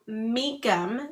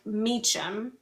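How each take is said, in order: First: The middle consonant is a 'k' sound. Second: The middle consonant is a 'ch' sound. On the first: The speaker calls it right. "It's it's pronounced Meekum" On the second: The speaker calls it wrong. "not Meacham"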